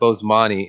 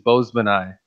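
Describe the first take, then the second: First: The name ends with an 'ee' sound. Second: The name ends with an 'eye' sound. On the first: The speaker calls it wrong. "not Bosemani" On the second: The speaker calls it right. "The correct pronunciation is Bozemanai"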